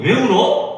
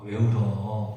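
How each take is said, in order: First: It is asked in a challenging, demanding tone. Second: It is asked as a plain, unchallenging question. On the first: The speaker calls it right. "이러는 톤 아니겠어요? 도대체 우는 이유가 뭐야?" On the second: The speaker calls it wrong. "이렇게 하는 게 아니고"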